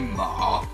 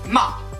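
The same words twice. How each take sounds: First: The pitch is low, dips, then rises slightly. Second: The syllable is short and quick. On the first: "assez grave en fait, qui descend et qui remonte un peu à la fin" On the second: "c'en est un rapide"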